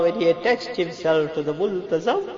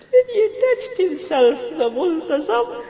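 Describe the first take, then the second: First: Raised voice, holding back sobs; tearful prayer. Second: Very high, loud tearful cry; weeping wail. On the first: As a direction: choke back tears while pleading. First take, emotion held somewhat. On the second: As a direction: let it break into a high wail. Repeats it, overcome by weeping. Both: Real, not acted.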